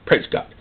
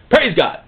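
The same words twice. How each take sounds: First: Soft, low-key thanks; subdued praise. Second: Said in the usual way. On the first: Acted. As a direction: say it under your breath, relieved. Muttered relief after order restored.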